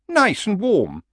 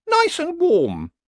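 First: High, coaxing horse voice. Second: Very high, slow horse voice; nervously pleading horse. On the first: Horse sells retirement to old barbarian, high and coaxing. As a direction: tempt him at an easy pace, pitched up. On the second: Uneasy horse pleads to retire, high and slow. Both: Acted.

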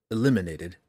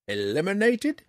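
First: Said in the usual way. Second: High, rising echo of "Eliminated?"; shocked query. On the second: A narrator's reading. Old ranger questioning Drizzt's word "Eliminated?", taken aback. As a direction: say "Eliminated?" as a startled question, pitch climbing.

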